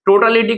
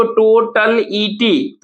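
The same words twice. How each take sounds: First: Said in the usual way. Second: टोटल ईटी slowly, in separated parts; syllable by syllable. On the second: Shown as a demonstration. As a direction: break टोटल ईटी into to, tal, i, ti. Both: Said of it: "टोटलिटी को टोटल ईटी".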